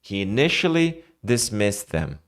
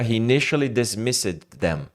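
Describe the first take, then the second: First: The d sound before them is dropped. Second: The d sound before them is pronounced. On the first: The speaker calls it right. "É como se você falasse isso aqui" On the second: The speaker calls it wrong. "não consegue falar, né, com naturalidade"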